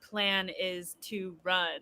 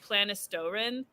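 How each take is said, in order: First: The name is split into four separate words. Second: The name runs together as one blended word. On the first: The name is a phrase of real words. The speaker calls it right. "Like it was actual words" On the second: The name was taken as a made-up word. The speaker calls it wrong. "I kept calling them Planistorin"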